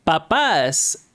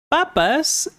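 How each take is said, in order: First: "Papas" stressed on the last syllable, pa-PAS; stress on second A. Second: "Papas" stressed on the first syllable, PA-pas, pitched higher. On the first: Teacher contrasting parents with potatoes, "Papas" stressed pa-PAS. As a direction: land on the final A of "Papas". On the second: Teacher contrasting potatoes with parents, "Papas" stressed PA-pas. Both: Shown as a demonstration. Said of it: "you can tell the accent difference there".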